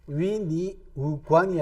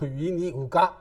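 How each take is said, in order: First: The last syllable ends with an n sound. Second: The last syllable ends without an n sound. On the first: "위니 우관이 아니고" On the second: "위니 우가 이렇게 하는 바람에 그것도 콧소리로"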